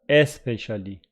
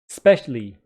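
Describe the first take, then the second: First: The word starts with a short vowel sound. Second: The word starts directly with the s sound. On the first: "It is not especially" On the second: "Look at the beautiful pronunciation of specially"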